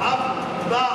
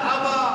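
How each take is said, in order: First: The middle consonant is held long, doubled. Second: The middle consonant is short, not doubled. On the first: The speaker calls it right. "বলে আব্বা" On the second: The speaker calls it wrong. "এখন তো এরকম বলা হয় না"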